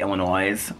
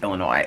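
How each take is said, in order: First: The final s is pronounced at the end. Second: The final s is silent at the end. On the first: The speaker calls it wrong. "with an S on the end of it" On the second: The speaker calls it right. "it's Illinois"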